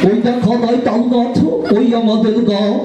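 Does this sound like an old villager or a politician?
old villager. It is said like an old man with regional dialect. An elderly villager is reciting the poem. "একটি বৃদ্ধকে দেওয়া হলো আবৃত্তি করার জন্য, বৃদ্ধের বাড়ি আবার বরিশাল"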